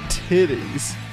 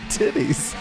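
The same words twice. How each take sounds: First: The word is drawn out and said slowly. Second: The word is said at an ordinary speed. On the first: "Say it slower" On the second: "Say titties"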